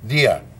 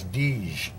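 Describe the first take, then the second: First: The name ends with a vowel sound. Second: The name ends with a consonant sound. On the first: This is how the name is actually pronounced. The speaker calls it right. "it's Dia" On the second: This is how Canadians would read the spelling. The speaker calls it wrong. "Canadians would pronounce that as Dige"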